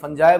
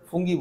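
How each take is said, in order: First: It is said with a soft 'j' and 'eye' ending. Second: It is said with a hard 'g' and 'ee' ending. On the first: This is the usual way the word is said. "वैसे फंजाई बोला जाता है उसको" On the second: This follows the spelling letter by letter. "फुंगी बोल दिया, तो गलत नहीं थे वो भी"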